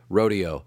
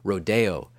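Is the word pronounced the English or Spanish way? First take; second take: English; Spanish. First: The word is given an English pronunciation. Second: The word is given a Spanish pronunciation. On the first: "I prefer the English rendering of it" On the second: "some use the Spanish pronunciation"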